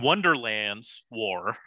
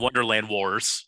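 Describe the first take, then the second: First: The s sound is attached to Wonderland. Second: The s sound is attached to Wars. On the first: The speaker calls it wrong. "I'm going to pronounce incorrectly to bother Peter" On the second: The speaker calls it right. "yeah, that sounds better"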